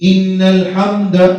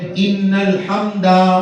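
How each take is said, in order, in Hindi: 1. आखिरी स्वर को छोटा रखा जाता है। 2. आखिरी स्वर को लंबा खींचा जाता है।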